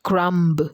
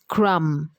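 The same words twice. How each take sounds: First: The word ends with an audible b sound. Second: The word ends on m with silent b. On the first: The speaker calls it wrong. "and not crumb" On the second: The speaker calls it right. "is crumb ... the B is silent"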